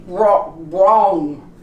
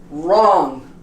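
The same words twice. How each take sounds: First: Wro-, wrong wrongly begun with W; sounded W. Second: Wrong starting straight on R, loud; silent W. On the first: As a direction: put a rounded W sound at the start of wrong. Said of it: "We don't say". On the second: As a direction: say wrong as "rong". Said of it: "We say". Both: Shown as a demonstration.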